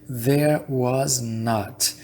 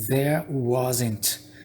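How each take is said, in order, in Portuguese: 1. 'Was' e 'not' são ditos como duas palavras completas. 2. 'Was' e 'not' são ditos juntos, como uma palavra só. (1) "ao invés de dizer there was not" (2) "eles abreviam, né? Eles encurtam a fala"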